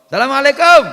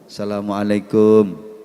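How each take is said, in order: First: It sounds like a casual greeting between friends. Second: It sounds like a formal greeting from a visitor. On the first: A friend is being greeted. "Salam ketemu kanca" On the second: A guest is greeting the host on a visit. "salame wong namu silaturahim beda gayanya"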